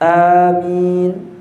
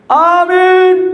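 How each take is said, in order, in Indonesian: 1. Kata "amin" diucapkan dengan pelan. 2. Kata "amin" diteriakkan dengan keras. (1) "Pelan aja" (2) "Nanti teriak di masjid"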